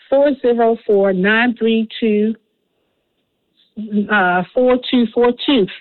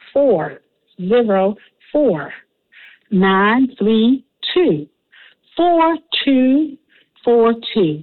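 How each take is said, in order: First: The number is said at normal speed. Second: The number is said slowly and carefully.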